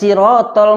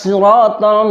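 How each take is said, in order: First: The first sound is a light, plain s. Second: The first sound is a heavy, emphatic s. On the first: The speaker calls it wrong. "Dibaca oleh anak" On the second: The speaker calls it right. "Yang seharusnya Sod"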